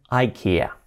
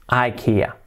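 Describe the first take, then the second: First: It is pronounced the English way, eye-KEE-uh. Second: The same.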